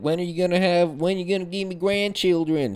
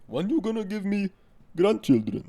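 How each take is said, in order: First: Mock Texas accent. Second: Put-on high-pitched mom with an Indian-sounding accent; badly faked Arabic accent, closer to Indian or Pakistani; attempted Arabic accent sounding Indian. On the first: Mom nagging her child for grandchildren, mock Texas accent. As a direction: imitate a pestering mother in a Texas accent. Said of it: "not Texas. I don't know why the fuck I made that accent". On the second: Arabic mom asking for grandchildren, botched Indian-sounding accent. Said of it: "That sounds fucking Indian or Pakistani".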